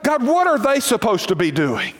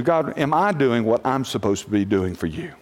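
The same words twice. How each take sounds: First: Higher, pointed question about others; nosy complaint to God. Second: Humble prayer. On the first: Preacher shows the wrong prayer, prying into others. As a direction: point the finger at them. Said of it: "it is so dangerous to get your eyes on what". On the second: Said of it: "The only thing you have to answer to". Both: Shown as a demonstration.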